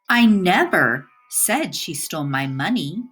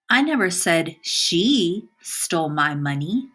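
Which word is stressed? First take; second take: never; she. First: The word "never" carries the stress. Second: The word "she" carries the stress. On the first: Denies that the words were ever said. "the emphasis on the word never" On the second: Somebody else did it. "By emphasizing the word she"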